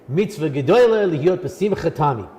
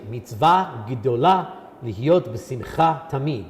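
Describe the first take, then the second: First: It is said in an Ashkenazi Hebrew accent. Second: It is said in a modern Israeli Hebrew accent.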